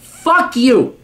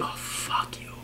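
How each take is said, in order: First: High-pitched, forceful dismissal; exasperated yell, pitched way up; angry outburst. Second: Whispered, drained contempt; near-silent whispered dismissal; disgusted mutter. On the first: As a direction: spit it out in outrage. Angry rant at letter writer. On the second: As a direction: breathe it out under your breath. Disgusted dismissal after mockery. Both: Real, not acted.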